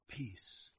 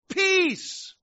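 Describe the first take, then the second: First: It is said softly and gently. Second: It is yelled loudly.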